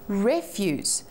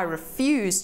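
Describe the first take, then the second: First: The stress is on the first syllable. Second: The stress is on the second syllable.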